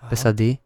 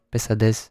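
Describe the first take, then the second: First: The final s sound is left off. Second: The final s sound is clearly pronounced. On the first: The speaker calls it wrong. "Je moet alles uitspreken" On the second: The speaker calls it right. "Je moet alles uitspreken"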